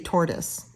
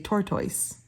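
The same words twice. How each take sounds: First: It is said with an American accent. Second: It is said with a British accent.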